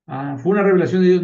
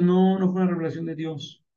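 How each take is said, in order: First: A quick, loud mock-amazed "¿fue una revelación de Dios?" with the pitch rising; fast, loud fake wonder at "revelación de Dios"; mock surprised question. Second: Said in the usual way.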